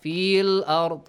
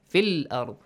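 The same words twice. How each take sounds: First: Fiil with the long vowel drawn out; stretched fil, wrong. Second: Fil said short, one count. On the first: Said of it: "not fil ard". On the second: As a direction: keep the ya in fil unstretched. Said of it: "Do not stretch it". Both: Shown as a demonstration.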